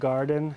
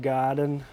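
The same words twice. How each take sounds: First: The vowel is plain without a Texan twang. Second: The vowel is drawn out with a Texan twang. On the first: "not garden" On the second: "Everyone would have said garden"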